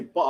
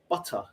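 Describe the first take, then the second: First: The T sound is dropped. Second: The T sound is clearly pronounced. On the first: This is casual speech among friends. "I will never say butter" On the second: This is proper speech used at work. "because I have to be proper"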